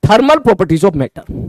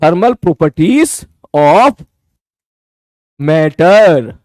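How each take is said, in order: First: Each word drawn out slowly for notes; slow dictation. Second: Stretched word by word, waiting for pens; very slow dictation. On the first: Teacher dictating the chapter name slowly to the class. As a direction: dictate the title slowly so students can write. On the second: Teacher repeating the title very slowly for students writing. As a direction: spell it out slowly to the class. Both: Shown as a demonstration.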